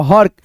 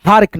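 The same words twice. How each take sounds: First: हर्क with a short "uh" before the r; correct short vowel. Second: हार्क with a long "aa", marked as wrong; teacher models हार्क with a stretched "aa"; wrong long vowel. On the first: Teacher giving students the right reading, short vowel. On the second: Teacher warning students off the long-vowel reading. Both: Shown as a demonstration. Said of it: "हार्क नहीं".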